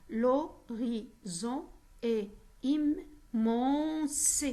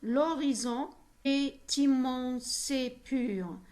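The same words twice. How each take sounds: First: Very slow "l'horizon est immense", a pause after each syllable; split into syllables. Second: Slow "L'horizon est immense et pur", held out in connected phrases; deliberate, drawn-out "L'horizon est immense et pur"; example verse reading. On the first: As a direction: chop "l'horizon est immense" into separate syllables, stretching the last ones. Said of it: "on va voir le découpage". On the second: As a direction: read "L'horizon est immense et pur" slowly, stretching the second half. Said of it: "Alors, comme exemple". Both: Shown as a demonstration.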